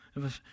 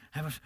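The two takes are said the same way.

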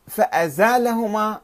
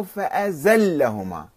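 First: فأزالهما with long aa and single l; فأزالهما as "fa-a-zaa-la-humaa"; long vowel, no shadda. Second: فأزلهما with a held double l; فأزلهما as "fa-a-zal-la-humaa"; with shadda. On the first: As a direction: draw out the aa in فأزالهما. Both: Shown as a demonstration. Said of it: "في الحركات والشدة".

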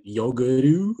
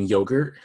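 First: "yoguru" with an added vowel ending; Korean pronunciation. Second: Said in the usual way. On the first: Shown as a demonstration. Explaining the sitcom's Korean accent, "yoguru" with emphasized ending. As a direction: say "yoguru" Korean-style, drawing out the last syllable. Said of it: "Korean way to say it".

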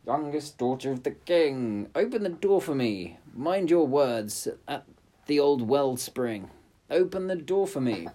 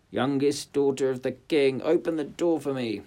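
First: Frog calling. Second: High, loud frog call. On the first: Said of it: "the frog knocked and said". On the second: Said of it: "it knocked and cried". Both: Acted. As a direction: call through the door.

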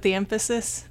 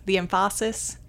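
First: Said in the usual way. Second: "emphasis" stressed on the second syllable, em-FAH-sis; misplaced stress. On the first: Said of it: "That's where you put the emphasis". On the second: Shown as a demonstration. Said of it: "where you put the emphasis".

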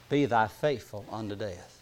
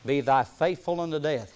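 First: Said in the usual way. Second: Faithful leaned on as the key word; stress on faithful. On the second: Shown as a demonstration. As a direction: hit "faithful" as the heart of the verse. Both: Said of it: "I want to stress the word faithful".

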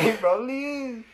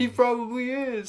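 First: High, laughing show-host echo. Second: High, slow mock show-host voice; game host voice. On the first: Retold or imitated. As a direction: copy the host voice for fun. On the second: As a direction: deliver it like a TV host teasing. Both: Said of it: "like a game host".

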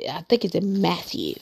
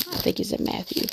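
First: Said in the usual way. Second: Whispered "I think it's in Matthew" under her breath; whispered to herself. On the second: Real, not acted. Preacher whispers to herself while hunting the verse.

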